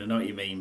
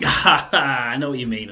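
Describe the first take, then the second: First: Said in the usual way. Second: Laughing. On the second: Real, not acted. Laughing agreement with co-host.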